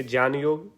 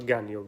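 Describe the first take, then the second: First: ज्ञान योग said as "jyan yog"; a j sound opening ज्ञान in ज्ञान योग; authentic pronunciation. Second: Said in the usual way. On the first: Shown as a demonstration. Teacher naming both forms, ज्ञान योग as "jyan yog". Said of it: "वास्तव में जो है ज्ञान है". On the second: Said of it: "मैं प्रचलित शब्द का प्रयोग".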